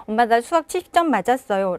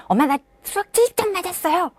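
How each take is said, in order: First: Quick, downcast report of the score; dejected child. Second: Put-on high, quick proud child. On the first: Child reports the math score to mom, downcast. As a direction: say it like a deflated kid. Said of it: "풀이 죽어 있는데". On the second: Child proudly tells mom the math score, high and quick. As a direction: brag about the score like a pleased kid. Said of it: "자랑스러워하는 것도 아니고". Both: Shown as a demonstration.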